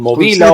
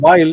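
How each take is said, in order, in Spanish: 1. El nombre se dice con pronunciación española. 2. El nombre se dice con pronunciación inglesa.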